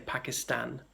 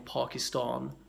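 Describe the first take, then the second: First: It has a northern English vowel. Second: It has an overstated, very posh vowel. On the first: The speaker is from northern England. "people in northern England might say Pakistan" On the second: The speaker would be extremely upper class. "an overstated version of that"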